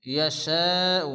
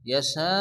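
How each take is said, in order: First: ইয়াশাউ drawn out slowly, hamza sounded at the end. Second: ইয়াশা cut short, no hamza, stop on the last sound; stopping without hamza. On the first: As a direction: stretch ইয়াশাউ slowly and keep the final hamza. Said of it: "অর্থাৎ হামজার একেবারে উচ্চারণ হবে না". (ইয়াশাউ হামজাসহ ধীরে টেনে) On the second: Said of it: "ইয়াশা বলে থামতে হবে". (ইয়াশা বলে হামজা ছাড়া থামা) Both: Shown as a demonstration.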